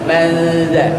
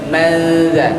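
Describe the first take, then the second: The two takes are said the same way.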